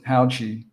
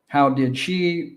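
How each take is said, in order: First: The words are reduced and run together. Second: Each word is said fully and separately.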